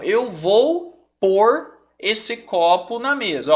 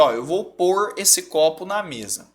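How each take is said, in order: First: Slow, drawn-out demo of "eu vou pôr esse copo na mesa"; slow example sentence. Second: "pôr" leaned on as the key word, at normal pace; stress on pôr. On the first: Teacher to students, giving a slow, clear example. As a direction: spell the sentence out slowly for the class. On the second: Teacher to students, stressing the verb "pôr". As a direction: point the class to "pôr" as you say it. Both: Shown as a demonstration. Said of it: "É o sinônimo de colocar".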